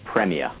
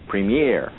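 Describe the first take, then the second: First: The word has a British pronunciation. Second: The word has an American pronunciation. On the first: "here in the UK we call it Premier" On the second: "every time I have an American on, they go, Premier"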